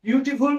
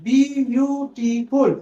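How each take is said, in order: First: Said in the usual way. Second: বিউটিফুল said very slowly, split into its syllables; teacher stretches বিউটিফুল syllable by syllable; broken into syllables. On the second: Shown as a demonstration. Teacher shows students how বিউটিফুল splits, slowly syllable by syllable. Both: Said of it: "দেখো ভেঙে যাচ্ছে সিলেবেলে".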